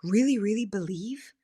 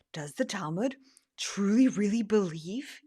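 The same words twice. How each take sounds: First: Said in the usual way. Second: Whisper. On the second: Real, not acted. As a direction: hush it as if on the phone. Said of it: "yes, I'm on my phone right now".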